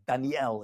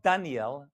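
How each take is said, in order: First: The stress falls on the final syllable. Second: The stress falls before the final syllable. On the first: The speaker calls it right. "It goes with the L, actually. Daniel is how you pronounce it" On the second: The speaker calls it wrong. "it's not Daniel"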